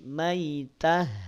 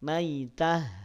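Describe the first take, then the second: Both takes have the same delivery.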